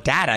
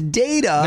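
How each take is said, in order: First: The word sounds close to 'daddy'. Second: The word does not sound like 'daddy'. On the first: The speaker calls it wrong. "You sound like you're calling for your daddy" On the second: The speaker calls it right. "The word is data"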